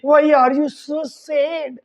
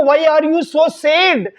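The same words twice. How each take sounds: First: Drawn-out, word by word; slow teaching model line. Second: Very slow, each word spaced out; slow teaching model line. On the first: Teacher repeats the husband's question very slowly. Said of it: "उसको English में बोलना". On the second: Teacher slowly models the husband's English question. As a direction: say it slowly so learners can copy. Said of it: "अगर आपको किसी को कहना है". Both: Shown as a demonstration.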